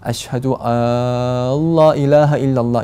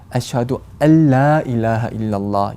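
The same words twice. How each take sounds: First: The vowel in 'alla' is drawn out long. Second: The vowel in 'alla' is kept short. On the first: The speaker calls it wrong. "알라 이렇게 길게 발음하는 경우가 많이" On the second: The speaker calls it right. "정확한 발음은"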